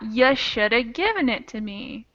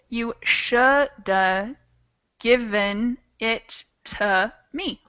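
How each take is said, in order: First: The unstressed vowels are reduced to schwa. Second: The words are said slowly with full vowels. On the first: "that frequently gets turned into yeah" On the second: "would be how it sounds slow"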